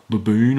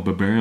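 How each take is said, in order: First: "baboon" with a long oo ending, loud; "baboon" as first guess. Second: "baboon" altered to end like "burn"; "baboon" as second guess. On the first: Granola's insult as first guessed, "baboon" with oo. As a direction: end "baboon" on "boon", said loudly. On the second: Unsure retelling of the insult, "baboon" ending like "burn". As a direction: swap the oo of "baboon" for an "er" sound. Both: Shown as a demonstration. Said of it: "or whatever he said".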